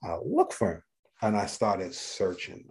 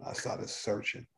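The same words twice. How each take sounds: First: Said in the usual way. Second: Slow, breathless whisper repeating it; whispered echo. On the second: Real, not acted. Telling the host how he hunted for his old patient, whispered. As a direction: drop to a hush and let it linger.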